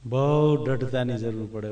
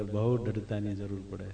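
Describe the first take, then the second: First: Said in the usual way. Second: Soft echo. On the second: Shown as a demonstration. Preacher repeats his point to the listeners, softly. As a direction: repeat બહુ દ્રઢતાની જરૂર પડે much softer and lower.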